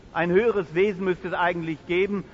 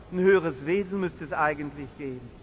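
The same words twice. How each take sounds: No difference in how they are said.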